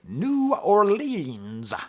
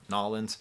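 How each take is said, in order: First: The name is said fully, every syllable clear. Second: The name is clipped into two quick syllables. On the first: It sounds like an outsider's pronunciation. The speaker calls it wrong. "the least New Orleans way of pronouncing it" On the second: It sounds like a local's pronunciation. The speaker calls it right. "as opposed to"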